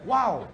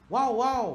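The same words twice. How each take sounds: First: High loud leering wow; ogling wow. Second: High, loud, drawn-out leering wow wow; double ogling wow. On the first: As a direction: gawk at her out loud. Mock ogling exclamation. (wow gatal yang tinggi dan kuat) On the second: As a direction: gawk twice with relish. Double wow, second look. (wow wow gatal, tinggi dan kuat) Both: Retold or imitated.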